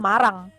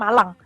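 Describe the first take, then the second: First: The middle consonant is a flapped R sound. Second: The middle consonant is a clear L sound. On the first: The speaker calls it wrong. "Kalau nggak double jadinya bacanya Marang" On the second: The speaker calls it right. "Bacanya baru jadinya Malang"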